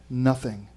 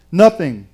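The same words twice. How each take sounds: First: "Nothing" low and soft; "Nothing" said far softer and lower, falling; hushed conclusion. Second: "Nothing" firm and punched; "Nothing" stated firmly with a falling tune; emphatic declaration. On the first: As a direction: let "Nothing" drop quietly as the last word. Same word repeated to close the promise. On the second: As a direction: land "Nothing" as a strong standalone word. Emphatic first statement of the promise. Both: Real, not acted.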